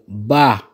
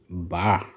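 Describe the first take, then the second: First: The word is said on a high tone. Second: The word is said on a low tone. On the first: "les deux autres portent un ton haut" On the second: "celui-là porte un ton bas"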